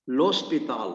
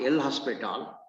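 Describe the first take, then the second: First: The name is said without a separate 'el' syllable. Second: The name starts with a separate 'el' syllable. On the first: The speaker calls it right. "You have to pronounce it as L'Hospital" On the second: The speaker calls it wrong. "not El Hospital"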